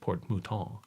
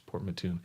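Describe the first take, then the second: First: The name is pronounced the French way. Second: The name is pronounced the English way, 'Mattoon'. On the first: The speaker calls it wrong. "I said Port Mouton. I thought it was French" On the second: The speaker calls it right. "but no, it's Port Mattoon"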